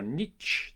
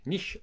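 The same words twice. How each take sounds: First: Niche ending in ch as in "each"; niche as "neetch". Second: Niche rhyming with leash, ending in a soft sh; niche as "neesh". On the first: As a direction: say niche with a hard tch at the end, "neetch". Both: Shown as a demonstration. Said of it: "depending on which part of the world".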